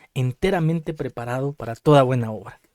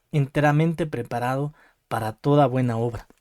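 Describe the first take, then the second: The two takes are said the same way.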